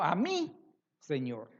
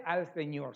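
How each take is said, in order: First: Slow, weight on "mi" in "a mi Señor"; preacher leans hard on "mi" to show it is her own Lord; stress on mi. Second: Said in the usual way. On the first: Shown as a demonstration. Preacher to congregation, slow with "mi" stressed. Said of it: "ya no dice al Señor". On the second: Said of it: "sino a mi Señor".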